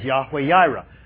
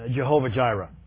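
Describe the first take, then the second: First: Both words begin with a Y sound. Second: Both words begin with a J sound. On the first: The speaker calls it right. "the best pronunciation is Yahweh Yireh" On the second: The speaker calls it wrong. "pronounce it with the German pronunciation"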